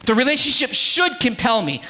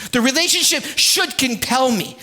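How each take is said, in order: Both takes have the same delivery.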